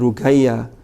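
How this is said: The middle consonant is a hard g sound.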